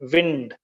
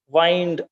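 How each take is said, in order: First: The vowel is short, as in 'pinned'. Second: The vowel is long, as in 'find'. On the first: It means moving air. "pronounced as wind, and it means moving air" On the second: It means to turn around. "can be pronounced as wind also. Then it means to turn around"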